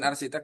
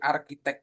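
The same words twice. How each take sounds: First: The middle consonant is an s sound. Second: The middle consonant is a k sound. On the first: The speaker calls it wrong. "bukan arsitek" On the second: The speaker calls it right. "tapi arsitek dibacanya in English"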